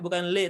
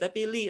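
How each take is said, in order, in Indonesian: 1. Suku kata ini diucapkan dengan vokal 'e'. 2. Suku kata ini diucapkan dengan vokal 'i'.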